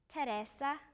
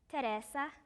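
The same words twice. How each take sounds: First: The name has an Italian pronunciation. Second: The same.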